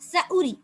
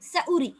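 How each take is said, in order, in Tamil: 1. நடு உயிர் குறுகி ஒலிக்கிறது. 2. நடு உயிர் குறுகி ஒலிக்கிறது.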